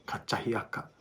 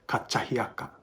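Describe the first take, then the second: First: The second consonant is a ch sound. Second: The second consonant is a ch sound.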